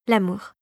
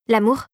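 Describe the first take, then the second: First: L'amour with a falling end; admitting. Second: L'amour with a rising end; sudden interjection. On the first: Fairy agrees with the soldier, falling L'amour. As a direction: concede L'amour, settling down. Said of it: "admit la fée dragée". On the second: Soldier cuts in on the fairy, rising L'amour. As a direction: drop in L'amour, lifting the last syllable. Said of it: "intervint soudain Philippe". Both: A narrator's reading.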